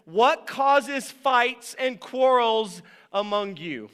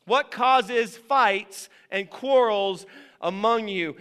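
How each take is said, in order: First: Slow, weighty scripture question; slow reading. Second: Same slow question again, pressing it; repeated slow. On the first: Preacher reading the verse to the church, slowly. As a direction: let each word land slowly. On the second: Preacher repeating the verse to the church, slow and pressing. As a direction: ask it again, slow and deliberate. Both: Shown as a demonstration. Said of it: "It's a question".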